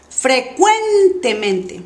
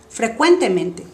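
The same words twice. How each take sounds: First: 'frecuentemente' drawn out on CUEN; exaggerated stress. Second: Said in the usual way. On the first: Shown as a demonstration. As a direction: stretch CUEN in 'frecuentemente' for a learner. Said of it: "voy a exagerar primero". (énfasis exagerado en CUEN de 'frecuentemente') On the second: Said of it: "y después normal".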